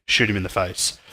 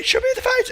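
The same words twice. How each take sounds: First: Said in the usual way. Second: High-pitched frantic psycho scream. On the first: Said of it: "in a normal quest box dialogue". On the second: Acted. Random psycho begging the player to shoot him, screaming nonstop. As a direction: yell it like a crazed psycho, way up high. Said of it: "he just screams at you nonstop".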